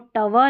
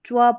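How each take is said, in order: First: A vowel separates the t from the w. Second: The t runs straight into the w. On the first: The speaker calls it wrong. "इसको टव नहीं पढ़ेंगे" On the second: The speaker calls it right. "ट्व पढ़ते हैं"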